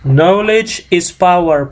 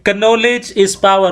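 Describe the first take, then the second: First: The k at the start is silent. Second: The k at the start is pronounced aloud. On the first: The speaker calls it right. "Jadi bukan keno" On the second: The speaker calls it wrong. "Rupanya salah pronunciation"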